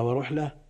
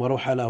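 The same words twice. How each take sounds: First: Second ورحلة as wa-ruh-la, no vowel after ha; silent middle letter. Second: First ورحلة as wa-ru-ha-la, "a" after ha; vowelled middle letter. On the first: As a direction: close the syllable in ورحلة: RUH-la. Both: Shown as a demonstration. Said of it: "بالفتح والسكون".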